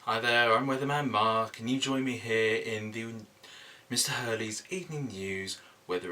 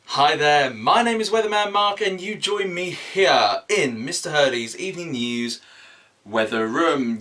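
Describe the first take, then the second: First: Said in the usual way. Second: Louder, higher, bigger weatherman intro; emphatic presenter voice. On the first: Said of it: "do you mean put more emphasis in it". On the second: Shown as a demonstration. Weatherman Mark restarting his intro with more emphasis. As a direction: sell it like a TV weatherman. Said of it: "put more emphasis in it".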